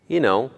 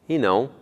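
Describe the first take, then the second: Both takes have the same delivery.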